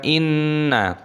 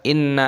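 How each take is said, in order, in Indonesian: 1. Huruf n-nya dibaca panjang dengan dengung sengau. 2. Huruf n-nya pendek, tanpa dengung sengau. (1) "harus ditekan inna" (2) "tidak boleh dibaca inna aja"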